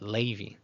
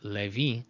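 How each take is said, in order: First: The first vowel glides like ei. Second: The first vowel is a plain, pure e. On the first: "they say uh, Levi" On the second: "instead of saying Levi"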